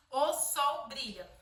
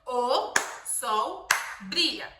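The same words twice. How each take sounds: First: "o sol brilha" slow, each word separated. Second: "O sol brilha" very slow, one beat per word; very slow clapped phrase. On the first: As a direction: space the words for claps. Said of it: "cada palavra a gente vai bater uma palma". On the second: Mother clapping each word for her child, very slow. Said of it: "Pra cada palavra, uma palma". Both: Shown as a demonstration.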